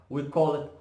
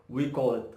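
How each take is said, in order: Both takes have the same delivery.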